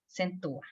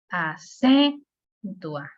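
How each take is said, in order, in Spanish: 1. El acento cae en la primera sílaba, a. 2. El acento cae en la segunda sílaba, cen. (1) "no le puedo dar la, la fuerza a la A porque se oye exagerado" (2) "No se lo pudiera dar a, por ejemplo, la C, acentúa. No, se ve medio raro"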